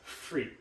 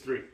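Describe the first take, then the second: First: The word starts with an f sound. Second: The word starts with a th sound. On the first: The speaker calls it wrong. "I would say it as free" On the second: The speaker calls it right. "It's tongue out"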